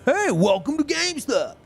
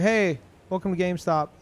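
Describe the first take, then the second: First: It is said in an upbeat, peppy voice. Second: It is said in a flat, low-energy voice. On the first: It imitates someone else's forced cheerfulness. "You need to have more pep in your voice" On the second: This is the speaker's natural way of talking. "that's just how I talk"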